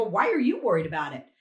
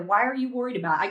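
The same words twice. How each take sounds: First: Measured comeback, leaning on "you"; retort, stress on "you". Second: Quick, imitated confrontational question; imitated challenge. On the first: Retold or imitated. Poll watcher answering her challenger, retort stressing "you". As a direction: throw it back with weight on "you". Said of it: "I go". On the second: Woman challenging the poll watcher, imitated quick challenge. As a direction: rattle it off as the retold challenger. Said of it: "She goes".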